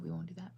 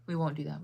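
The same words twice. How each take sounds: First: Softer, muttered to herself; quiet repeat. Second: Said in the usual way. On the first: Real, not acted. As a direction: say it again under your breath.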